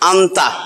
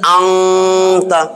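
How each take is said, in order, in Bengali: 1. t-এর আগে n স্পষ্টভাবে উচ্চারিত হয়। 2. t-এর আগে n একটি অনুনাসিক গুঞ্জনে লুকিয়ে যায়। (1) "আন্তা আছে" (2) "এই উচ্চারণ হইতেছে আংতা"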